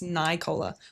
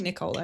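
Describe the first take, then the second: First: The first syllable sounds like 'night'. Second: The first syllable does not sound like 'night'. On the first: The speaker calls it right. "it's Nicola, like Night City" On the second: The speaker calls it wrong. "I kept saying Nicola"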